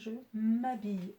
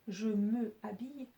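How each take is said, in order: First: The vowel of 'me' is dropped before 'habille'. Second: The vowel of 'me' is pronounced before 'habille'. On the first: The speaker calls it right. "Je vais dire" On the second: The speaker calls it wrong. "je ne peux pas dire"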